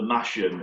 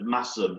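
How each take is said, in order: First: The middle consonant is a 'sh' sound. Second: The middle consonant is an 's' sound. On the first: The speaker calls it wrong. "I mashed potatoes for mash'em" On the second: The speaker calls it right. "instead of mass'em"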